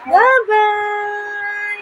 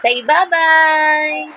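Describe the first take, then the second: First: Put-on "Bye-bye" sung out high and drawn out for the baby to copy; sing-song bye-bye for baby. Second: Said in the usual way. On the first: Shown as a demonstration. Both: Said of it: "Imitate what Mommy's doing".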